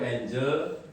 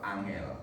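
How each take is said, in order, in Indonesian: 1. Diucapkan dengan vokal Inggris, seperti 'ain-jel'. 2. Diucapkan dengan vokal Jawa, seperti 'ah-ngel'. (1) "angel itu bahasa Inggris" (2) "kalau dibaca orang Jawa"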